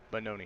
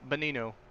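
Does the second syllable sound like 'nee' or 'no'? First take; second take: no; nee. First: The second syllable sounds like no. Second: The second syllable sounds like nee. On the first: The speaker calls it right. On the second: The speaker calls it wrong. "Not Benino"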